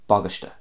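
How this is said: It is said in a Connacht Irish accent.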